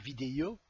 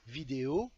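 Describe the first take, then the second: First: It is said with a regional accent. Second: It is said in neutral standard French. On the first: The speaker calls it wrong. "et pas vidéo ou vidéo, comme j'ai déjà entendu" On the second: The speaker calls it right. "c'est de dire vidéo"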